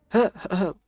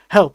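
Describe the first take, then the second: First: It is said flatly, with no urgency. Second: It is said urgently, with alarm. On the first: The speaker is casually asking for a hand. The speaker calls it wrong. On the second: The speaker is in real danger. The speaker calls it right.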